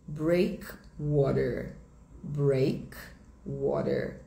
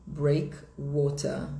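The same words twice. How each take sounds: First: American English, slow and clear, R sounded in "breakwater"; sotaque americano. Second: Slow British demo, R dropped at the end of "breakwater"; sotaque britânico. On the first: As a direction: say "breakwater" slowly with an American R ending. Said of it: "Em inglês americano". (sotaque americano, devagar, com o R final) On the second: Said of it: "Em inglês britânico". (sotaque britânico, devagar, sem o R final) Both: Shown as a demonstration.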